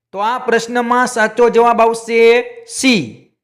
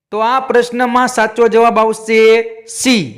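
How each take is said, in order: No difference in how they are said.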